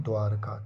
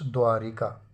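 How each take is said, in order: First: द्वारका with no i after r; correct form. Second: द्वारिका with ri in the middle; wrong form. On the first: Teacher correcting it, द्वारका without the i. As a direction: say द्वारका as dvaar-kaa. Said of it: "छोटी की मात्रा नहीं". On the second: Teacher showing friends the error, द्वारिका with ri. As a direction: say द्वारिका as dvaa-ri-kaa. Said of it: "द्वारिका नहीं". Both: Shown as a demonstration.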